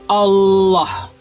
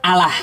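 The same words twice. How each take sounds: First: The double l sounds thick and dark. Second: The double l sounds thin and light. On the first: The speaker calls it right. "tafkhim itu artinya menebalkan, menebalkan" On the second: The speaker calls it wrong.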